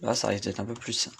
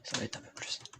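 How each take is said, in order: First: Said in the usual way. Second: Soft unvoiced whisper. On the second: Real, not acted. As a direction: whisper it as an aside. Repeats line whispered.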